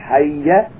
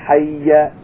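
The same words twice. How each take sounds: The two takes are said the same way.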